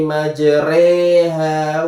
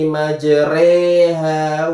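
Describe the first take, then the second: First: The middle vowel sounds like an 'e'. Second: The middle vowel sounds like an 'e'.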